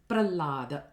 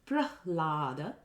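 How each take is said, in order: First: There is no h sound at all. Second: The h sound comes before the l. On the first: The speaker calls it wrong. "the h is totally lost" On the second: The speaker calls it right. "instead of Prahlada, which is Hlada"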